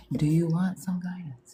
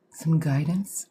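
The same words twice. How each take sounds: First: Said in the usual way. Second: Whispered, mysterious "some guidance?"; mock mystic offer. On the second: Shown as a demonstration. Psychic host offering viewers guidance, in a mock mystic whisper. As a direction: breathe it like a hammed-up fortune teller. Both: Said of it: "I can't even say it without sounding like an asshole".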